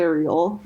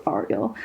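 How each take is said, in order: First: Ariel opening on AIR, "AIR-ee-ul"; English pronunciation. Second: Ariel opening on AH, "AR-ee-el"; Hebrew pronunciation. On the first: Convert showing the familiar spelling, Ariel said "AIR-ee-ul". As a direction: say Ariel like the mermaid, starting "air". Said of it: "and it's spelled like". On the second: Convert correcting the English reading, Ariel said "AR-ee-el". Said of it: "in Hebrew it's pronounced". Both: Shown as a demonstration.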